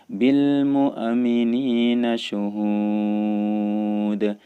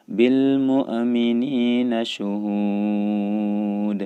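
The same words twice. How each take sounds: The two takes are said the same way.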